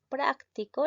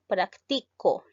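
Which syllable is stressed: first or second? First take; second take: first; second. First: The stress is on the first syllable. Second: The stress is on the second syllable. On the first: It is an adjective meaning practical. "la sílaba tónica lleva en prac y esto llega a ser el adjetivo" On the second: It is a verb meaning I practise. "La mayor fuerza de voz lleva en la sílaba ti y llega a ser un verbo"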